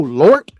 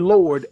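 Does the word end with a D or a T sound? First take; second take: T; D. First: The word ends with a T sound. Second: The word ends with a D sound. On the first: The speaker calls it right. "The letter T. ... This is correct" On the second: The speaker calls it wrong. "She doesn't say Lord, L O R D"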